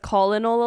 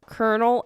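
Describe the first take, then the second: First: It is sounded out as spelled, with an L. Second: It sounds like kernel, with an R. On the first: The speaker calls it wrong. "so I would read it as colonel a lot" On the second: The speaker calls it right. "Until one day someone was like"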